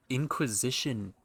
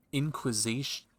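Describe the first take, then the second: First: "Inquisition" said in full, "in-kwi-zi-shun"; corrected pronunciation. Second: "Inquisition" cut short as "inkish"; mispronounced. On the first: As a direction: say "Inquisition" properly, every syllable. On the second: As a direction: stumble over "Inquisition", clipped to "inkish". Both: Shown as a demonstration.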